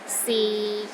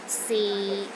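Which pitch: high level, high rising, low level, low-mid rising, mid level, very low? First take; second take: low level; low level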